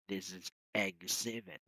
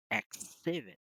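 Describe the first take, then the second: First: "exhibit" said egg-ZIB-it with a gz; correct exhibit. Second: "exhibit" said ek-SIB-it with a hard ks; the wrong ks version of "exhibit". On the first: Teacher models the correct form of a word. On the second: Teacher shows the mistaken pronunciation. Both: Shown as a demonstration. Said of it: "not exhibit".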